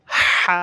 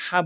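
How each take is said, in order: First: হা with a strong airy h from mid-throat, vowel held. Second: Said in the usual way. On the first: Shown as a demonstration. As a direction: push a long breath from the throat into হা. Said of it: "কণ্ঠনালীর মাঝখান থেকে". (কণ্ঠনালীর মাঝখান থেকে হা টেনে) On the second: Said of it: "এমনি হা বললে হবে না".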